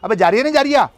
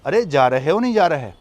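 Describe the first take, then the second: First: It is said fast, in Karkhandari style. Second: It is said slowly, in standard style.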